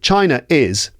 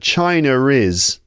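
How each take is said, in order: First: No r sound joins the two words. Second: An r sound joins the two words. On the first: The speaker calls it wrong. "we don't say" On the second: The speaker calls it right.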